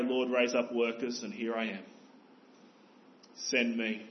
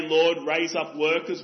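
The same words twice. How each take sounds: First: Softer, humble offer of himself; mean every word, quietly; earnest prayer that ends in send me; sincere prayer. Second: A louder, showy prayer with no intent to go; empty, self-satisfied prayer for workers; hypocrite's prayer. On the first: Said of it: "No, we must pray". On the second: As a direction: pray it like a religious hypocrite. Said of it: "That's a prayer for religious hypocrites". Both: Retold or imitated.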